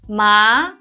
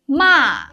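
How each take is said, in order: First: The pitch rises like a question. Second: The pitch falls sharply from high. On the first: It means numb. "it's a rising tone" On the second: It means scold. "a sharp falling tone"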